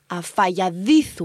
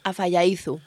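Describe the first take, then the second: First: The D sound is said with strong emphasis. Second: The D sound is said lightly, not stressed. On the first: "tienes que remarcar mucho la D" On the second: "él no dice a falladizo"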